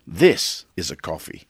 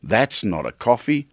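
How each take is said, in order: First: Lower, proud, This pressed hard; a light Dundee brag about real coffee; Dundee-style boast. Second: Mild Dundee quote, coffee lifted dismissively; a hint of Crocodile Dundee, unimpressed; Dundee-style scoff. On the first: Retold or imitated. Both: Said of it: "Crocodile Dundee of coffee".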